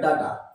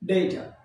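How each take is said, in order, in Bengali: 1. এটি বাংলা ঢঙের উচ্চারণে বলা হচ্ছে। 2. এটি ইংরেজি ঢঙের উচ্চারণে বলা হচ্ছে। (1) "নট ডাটা" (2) "আসলে এর উচ্চারণ হচ্ছে ডেটা"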